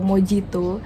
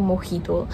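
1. Huruf j diucapkan dengan bunyi j. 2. Huruf j diucapkan dengan bunyi h.

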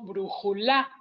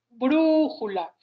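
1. La sílaba tónica es la tercera. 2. La sílaba tónica es la primera. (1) "tampoco digo brújula" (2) "la sílaba tónica es brújula"

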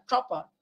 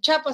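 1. La ch se hace con la punta de la lengua curvada. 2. La ch se hace con la punta de la lengua plana. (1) "con la punta de la lengua doblada" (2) "En vez de decir chapa"

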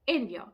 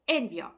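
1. Наголос падає на перший склад «en». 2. Наголос падає на перший склад «en».

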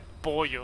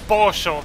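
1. Se dice con acento del español de España. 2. Se dice con acento argentino. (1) "En España se dice pollo" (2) "según dirían los argentinos"

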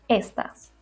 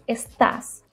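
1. El acento está en la primera sílaba. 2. El acento está en la segunda sílaba. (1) "y no estás" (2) "porque el acento está en la A"

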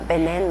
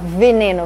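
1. A palavra começa com som de B. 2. A palavra começa com som de V. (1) "no espanhol a letra V tem um sonzinho de B" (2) "então você não fala veneno"

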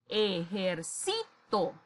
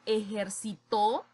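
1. El acento está en la penúltima sílaba. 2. El acento está en la última sílaba. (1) "Se convierte en una palabra grave" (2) "ya es diferente, estoy hablando de un verbo en pasado"

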